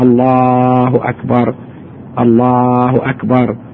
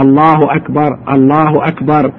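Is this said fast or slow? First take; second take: slow; fast. First: It is said slowly and drawn out. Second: It is said quickly and briskly. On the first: This is how the call to prayer is said. "الأذان يطوله، تأني شوية شوية" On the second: This is how the iqama is said. "يعني يسرع شوية فيها"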